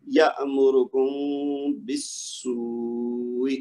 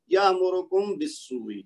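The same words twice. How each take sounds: First: Slow یامرکم بالسوء, meem hummed through the nose for two beats before the ba; correct ikhfa with ghunnah. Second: یامرکم بالسوء with a short, clear meem and no nasal hold; wrong, hurried meem. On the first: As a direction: hold the nasal meem of یامرکم, then glide into a long بالسوء. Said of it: "میم کی آواز کو دو حرکت تک". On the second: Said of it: "غلط پڑھوں تو کیسے پڑھوں گا؟". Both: Shown as a demonstration.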